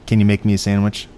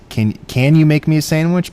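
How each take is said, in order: First: It sounds like a firm, demanding command. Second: It sounds like a polite, asking request.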